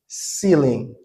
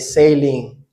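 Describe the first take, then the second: First: The first vowel sounds like 'see'. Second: The first vowel sounds like 'say'. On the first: The speaker calls it right. "the right way to say it is ceiling" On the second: The speaker calls it wrong. "I mispronounce this word. I say sailing"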